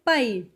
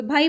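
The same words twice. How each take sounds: First: Final भाई said as paai, with a p; forceful Punjabi pronunciation. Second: भाई with a voiced bh; polite Hindi pronunciation. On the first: Teacher showing how brother is said in Punjabi, forceful Punjabi pronunciation. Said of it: "थोड़ा ज़ोर से बोला जा रहा है". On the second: Teacher showing how brother is said in Hindi, polite Hindi pronunciation. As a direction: say भाई gently, Hindi bh at the start. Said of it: "Hindi में बोलते हैं भाई तो बिल्कुल polite". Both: Shown as a demonstration.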